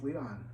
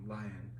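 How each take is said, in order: First: The first syllable sounds like 'lee'. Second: The first syllable sounds like 'lie'. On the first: This is how the original Japanese say the name. The speaker calls it right. "the Japanese pronounce him as Leon" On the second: This is how Americans tend to say the name. The speaker calls it wrong. "how Americans like to call him Lion"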